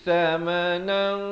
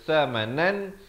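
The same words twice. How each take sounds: First: The final n is hidden with a heavy nasal sound. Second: The final n is pronounced clearly. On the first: "ikhfa di sini dengan tebal"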